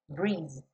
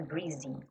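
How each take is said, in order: First: The word ends on the Z sound, no final vowel. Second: The word ends with an added final vowel sound. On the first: The speaker calls it right. "esse E final não é pronunciado" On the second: The speaker calls it wrong. "não é breezy"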